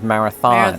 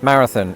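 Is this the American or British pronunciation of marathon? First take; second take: American; British. First: It is said with an American pronunciation. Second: It is said with a British pronunciation. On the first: "instead of" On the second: "we do that with a lot of words that end in on"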